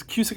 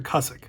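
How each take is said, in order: First: Cusick said as KYOO-sik; first syllable of Cusick rhymes with "few"; alternative pronunciation. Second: Cusick said as CUSS-ik; first syllable of Cusick rhymes with "bus"; alternative pronunciation. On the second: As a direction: say Cusick with a short "uh" vowel. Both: Shown as a demonstration. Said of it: "the way to pronounce it".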